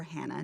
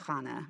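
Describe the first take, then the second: First: Said in the usual way. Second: "Hannah" with a throaty kh at the start; Hebrew pronunciation. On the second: Shown as a demonstration. Preacher naming the story's woman, "Hannah" said as Khana. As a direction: say "Hannah" the Hebrew way, as KHAH-nah. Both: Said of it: "depending on how you pronounce it".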